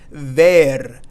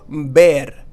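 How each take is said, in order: First: It begins with an English v sound. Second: It begins with a b sound. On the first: The speaker calls it wrong. "We would think that this would be pronounced as ver, ver, but it is not" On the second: The speaker calls it right. "pronounce this with a B sound"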